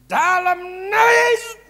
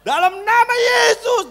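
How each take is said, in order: First: Slow, loud, high shouted rebuke; slurred shouting rebuke; garbled shout. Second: Slow, very loud and high rebuke; slurred shouting rebuke; unclear shout. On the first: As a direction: yell it so hard the words blur. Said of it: "Sampai nggak jelas kan kedengarannya". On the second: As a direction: stretch it into a loud blurred yell. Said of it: "Nggak jelas, saudaraku". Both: Shown as a demonstration.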